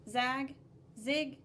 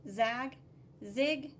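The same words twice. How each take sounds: The two takes are said the same way.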